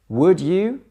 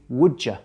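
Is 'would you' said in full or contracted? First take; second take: full; contracted. First: Both words are said fully and separately. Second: The words are shortened and run together.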